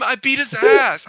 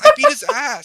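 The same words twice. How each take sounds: First: Higher, louder and slow boast; bragging about the win; gloating brag. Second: Much higher and louder, a screech of glee; overexcited kid shriek; squealing brag. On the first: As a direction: rub it in. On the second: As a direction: push the gloat to the top. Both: Retold or imitated. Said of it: "'cause he's like".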